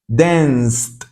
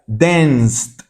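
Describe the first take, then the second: No difference in how they are said.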